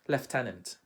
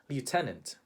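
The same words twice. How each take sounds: First: It is said with a British English pronunciation. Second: It is said with a Philippine English pronunciation. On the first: "How do Brits pronounce it?" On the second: "In the Philippines, we would say lieutenant"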